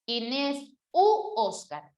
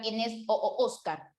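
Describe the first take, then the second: First: Slow "u Oscar", the "u" held long as an oo sound; u replacing o. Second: "o Oscar" with two identical o sounds run together; cacophonous o Oscar. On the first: Teacher gives students the fix, a slow, stressed "u" in "u Oscar". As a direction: stretch the "u" before "Oscar". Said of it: "la conjunción o por la u". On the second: Teacher shows students the clash to avoid, doubled o in "o Oscar". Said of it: "Para evitar esa cacofonía". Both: Shown as a demonstration.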